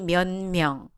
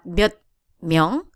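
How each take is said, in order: First: The first word's final consonant is softened. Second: The first word's final consonant is hard. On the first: The speaker calls it right. "ending consonant is slightly softer, so the pronunciation will be" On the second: The speaker calls it wrong.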